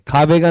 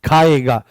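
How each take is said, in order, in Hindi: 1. अंत से पहले 'v' ध्वनि आती है। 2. अंत से पहले 'v' ध्वनि नहीं आती है।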